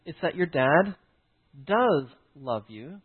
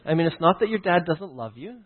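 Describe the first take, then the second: First: "does" leaned on, slowed right down; stress on does. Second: Said in the usual way. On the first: Shown as a demonstration. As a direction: hit the word "does" slowly and firmly. Contrast: doesn't love vs does love.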